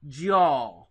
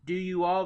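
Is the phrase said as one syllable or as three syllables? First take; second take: one syllable; three syllables. First: The words are merged into a single syllable. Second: Each word is said separately as three syllables.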